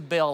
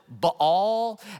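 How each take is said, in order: First: The word is pronounced like 'bale'. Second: The word is not pronounced like 'bale'. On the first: The speaker calls it right. "like Baal of hay" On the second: The speaker calls it wrong. "I have heard a few people pronounce it Baal, and that's just weird to me"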